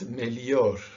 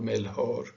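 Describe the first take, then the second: First: The consonant after the L sounds like Y. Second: The consonant after the L has no Y sound. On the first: The speaker calls it right. "It's melior, more like an I or a Y" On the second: The speaker calls it wrong. "it's not melhor"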